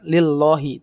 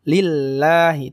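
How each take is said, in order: First: The L sound is heavy and thick. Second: The L sound is light and thin. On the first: The speaker calls it wrong. "Bukan lillahi. Tidak" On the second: The speaker calls it right. "Tipis ya"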